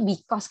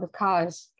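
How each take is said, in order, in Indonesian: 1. Ini diucapkan dengan aksen Indonesia yang kental. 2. Ini diucapkan dengan aksen Inggris asli. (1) "Kalau kita tuh because gitu, Indonesia banget" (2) "kalau dalam native speaker dia bilang because kayak gitu"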